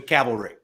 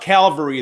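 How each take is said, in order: First: The L sound comes after the V sound. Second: The L sound comes before the V sound. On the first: The speaker calls it right. "as opposed to cavalry" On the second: The speaker calls it wrong. "Came out Calvary the first time"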